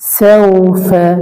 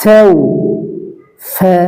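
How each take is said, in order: First: The syllables are joined together without a pause. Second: The syllables are said separately with a pause. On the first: "মিলানো" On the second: "উচ্চারণ এবং মিলানো"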